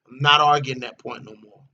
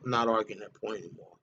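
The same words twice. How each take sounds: First: Said in the usual way. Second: Quiet, fast aside. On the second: Real, not acted. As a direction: drop low and soft, rattling it off to himself. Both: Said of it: "I've argued that point for long enough".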